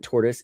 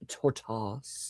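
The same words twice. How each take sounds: First: The word is said in an ordinary, plain way. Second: The word is said in an elaborate, fancy way. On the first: "it's not tortoise" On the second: "pronounce it fancy"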